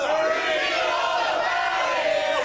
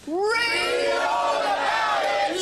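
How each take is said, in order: First: High drawn-out street shout; newspaper seller cry. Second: Long drawn-out street shout; newspaper seller cry. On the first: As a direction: bellow it slowly across the street. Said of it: "We're gonna do that again". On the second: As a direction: call it out slowly like a newsboy. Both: Shown as a demonstration.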